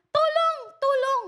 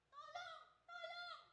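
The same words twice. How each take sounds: First: High, louder shout of help; shouted cry for help. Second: Barely audible high call for help; a thin, faint plea from far off; faint cry for help. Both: Retold or imitated. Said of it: "Sumisigaw po siya".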